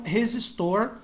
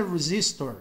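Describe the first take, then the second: First: Resistor with a Brazilian breathy H-like first R; Portuguese pronunciation. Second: Resistor with an American R, stress on the middle syllable; English pronunciation. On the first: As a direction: say resistor the Portuguese way, stress on the last syllable. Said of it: "em português e em inglês é". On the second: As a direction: say resistor the English way, re-ZIS-tor. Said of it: "em inglês é resistor". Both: Shown as a demonstration.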